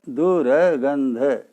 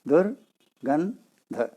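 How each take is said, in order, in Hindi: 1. यह शब्द खींचकर चार अक्षरों में बोला गया है। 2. यह शब्द तीन अक्षरों में बोला गया है। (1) "दुर्गंध को दुर्गंध चार वर्णों में पढ़ लेते हैं" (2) "दुर्गंध शब्द में तीन ही वर्ण है"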